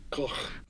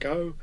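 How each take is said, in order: First: The name is said with a Dutch pronunciation. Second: The name is said with an English pronunciation. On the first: "Apparently the Dutch say Gough" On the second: "People say Van Gogh"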